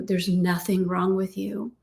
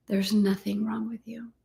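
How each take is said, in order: First: Said in the usual way. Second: Breathy close whisper; hushed reassurance. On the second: Shown as a demonstration. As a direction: whisper the line softly. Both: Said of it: "repeated affirmation".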